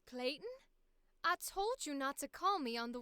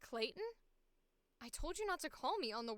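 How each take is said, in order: First: It is spoken with a Southern American accent. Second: It is spoken in the speaker's normal accent. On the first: "we're gonna see if we can put it back on again" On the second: "we'll do the second one as our like our normal voice"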